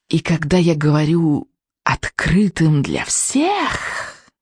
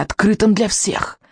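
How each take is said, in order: First: Very slow, drawn-out witch voice; drawling witch. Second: Said in the usual way. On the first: Acted. Witch adding to her announcement, drawling. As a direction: stretch each word out, like a witch. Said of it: "протянула она".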